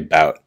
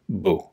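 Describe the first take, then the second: First: The word ends with a pronounced t sound. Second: The word ends on a vowel, no t. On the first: "I know we like to say bout" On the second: "technically this is a boo. That's that's how you pronounce it"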